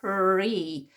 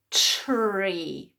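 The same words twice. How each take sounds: First: Tree with a clean t, then a separate ree; correct first sound. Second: Tree begun with a ch sound, like chree; mistaken first sound. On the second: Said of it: "Sometimes we think it's". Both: Shown as a demonstration.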